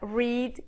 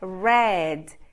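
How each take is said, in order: First: The vowel is long, like 'reed'. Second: The vowel is short, like 'red'. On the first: It is the present-tense base form. "forma básica read" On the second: It is the past-tense form. "O passado simples é read"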